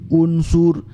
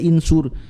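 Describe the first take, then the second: First: The word begins with a u vowel. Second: The word begins with an i vowel. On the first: The speaker calls it right. "Lebih ringan di lidah mengucapkan unsur" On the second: The speaker calls it wrong. "kenapa tidak insur? Karena berat"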